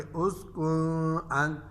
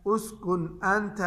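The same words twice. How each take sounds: First: "उसकुन अंत" with a long nasal hum on the n; wrong ghunna. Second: "उसकुन अंत" slowly, clear n without nasal hum; clear izhar. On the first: Teacher shows students the mistake, long nasal hum in "उसकुन अंत". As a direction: hold the end of "उसकुन" in the nose before "अंत". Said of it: "ऐसे नहीं पढ़ेंगे". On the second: Teacher models noon before hamza for students, clear n in "उसकुन अंत". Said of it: "इसको हम जाहिर करके पढ़ेंगे". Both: Shown as a demonstration.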